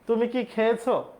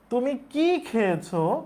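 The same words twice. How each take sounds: First: The stress falls on the verb খেয়েছো. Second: The stress falls on the word কি. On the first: It asks whether the person ate or not. "এর উত্তর হ্যাঁ অথবা না দিয়ে করা যাবে" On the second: It asks what the person ate. "এই অ্যাকসেন্টে বলি"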